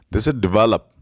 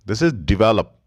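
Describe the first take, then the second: No difference in how they are said.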